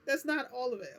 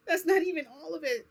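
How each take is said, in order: First: Said in the usual way. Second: High, loud laugh breaking through the words; giggling through the line. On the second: Real, not acted. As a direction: laugh it out in disbelief. Laughs at own story.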